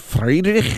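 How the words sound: The name is said with German pronunciation.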